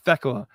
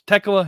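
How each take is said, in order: First: The name begins with a TH sound. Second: The name begins with a plain T sound. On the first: The speaker calls it wrong. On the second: The speaker calls it right. "there's an H in the name, but it's silent"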